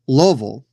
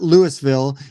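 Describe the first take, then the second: First: The name is said the local way. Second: The name is said the outsider way. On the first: The speaker calls it right. "It's Louisville. ... that is how the natives say it" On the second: The speaker calls it wrong. "It is not Louisville"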